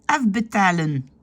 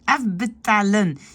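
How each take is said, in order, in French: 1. Il est prononcé avec les lèvres tendues et étirées, à la française. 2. Il est prononcé avec les lèvres tendues et étirées, à la française.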